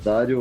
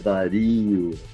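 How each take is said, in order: First: The stress is on the first syllable. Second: The stress is on the second syllable. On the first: The speaker calls it wrong. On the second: The speaker calls it right.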